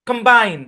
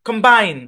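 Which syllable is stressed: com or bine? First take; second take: bine; bine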